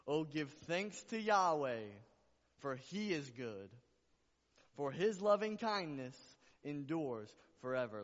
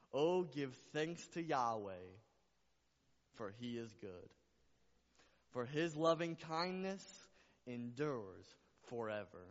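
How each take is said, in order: First: Very loud, soaring scripture declaration; emphatic repeated proclamation. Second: Loud, drawn-out verse reading, easing on line ends; proclaimed scripture. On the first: Preacher repeating a beautiful verse to the church, exultant full-force proclamation. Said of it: "I gotta say it again". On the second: Preacher reciting scripture to the church, proclaimed slowly. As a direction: proclaim the verse slowly, dropping on the closing words. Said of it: "I'll say it like this". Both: Real, not acted.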